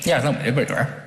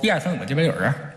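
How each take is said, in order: First: It is counted in a mumbled Beijing accent. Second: It is counted in a mumbled Beijing accent.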